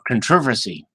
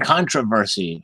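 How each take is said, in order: First: It is said in a British pronunciation. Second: It is said in a non-British pronunciation.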